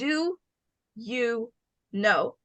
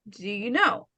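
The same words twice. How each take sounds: First: The words are said separately, each one distinct. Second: The words are run together, the vowel dropped. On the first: "Instead of saying" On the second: "Try practice connecting your words"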